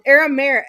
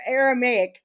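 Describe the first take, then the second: First: "Aramaic" with the ending swallowed, like "air-a-mair"; mispronounced attempt. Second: "Aramaic" with a clear "may-ik" ending; second try. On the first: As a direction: stumble on "Aramaic", last syllable blurred into an r. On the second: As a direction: sound out "Aramaic" as "air-a-may-ik". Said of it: "however you say it". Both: Real, not acted.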